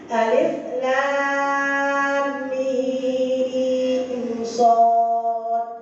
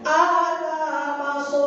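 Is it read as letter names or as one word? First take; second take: letter names; one word. First: Each letter is said separately by its name. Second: The letters are run together as one word. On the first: The speaker calls it right. "Itu bukan alamaso bacanya" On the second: The speaker calls it wrong. "Saya baca gini"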